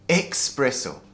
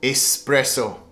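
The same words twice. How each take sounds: First: The word begins with an 'ex' sound. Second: The word begins with an 'es' sound. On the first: The speaker calls it wrong. "They say espresso. ... I guess they get confused by the word express" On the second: The speaker calls it right. "But it should be pronounced espresso"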